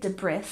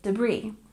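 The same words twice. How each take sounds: First: An S sound is pronounced in the word. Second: No S sound is pronounced in the word. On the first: The speaker calls it wrong. "We don't say debris" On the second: The speaker calls it right. "another word with a silent S. ... we say debris"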